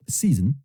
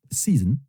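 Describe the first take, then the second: No difference in how they are said.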